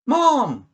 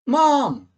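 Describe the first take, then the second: First: It is called out loudly. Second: It is called out loudly.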